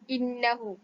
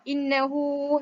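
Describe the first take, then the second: First: The final vowel is cut short at one count. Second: The final vowel is stretched for six counts. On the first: "bukan satu harkat" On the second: "bukan juga enam. Innahu, salah"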